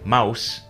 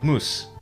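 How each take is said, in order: First: The vowel is pronounced like ow. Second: The vowel is pronounced like oo. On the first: "in Standard English, you say mouse" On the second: "in Scots, you say moose"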